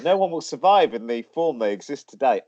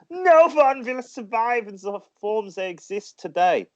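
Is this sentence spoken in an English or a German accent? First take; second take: English; German. First: It is spoken in an English accent. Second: It is spoken in a German accent. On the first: The speaker calls it right. "I'll say it in an English accent; it's slightly better" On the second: The speaker calls it wrong. "how awful that sounds in a German accent"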